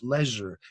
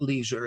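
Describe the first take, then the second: First: It is said with a British pronunciation. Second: It is said with an American pronunciation. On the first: The speaker calls it right. "pronounce real English" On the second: The speaker calls it wrong. "not leisure, as Americans say"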